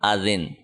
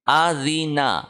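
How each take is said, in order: First: The word ends on a bare consonant. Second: The word ends with a short vowel. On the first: Reading stops on this word. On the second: Reading continues without stopping.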